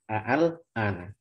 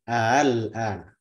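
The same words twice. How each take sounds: First: The second hamza is pronounced fully and clearly. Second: The second hamza is softened toward a vowel. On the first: "Asal katanya al-an" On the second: "Lalu dibaca dengan tasil"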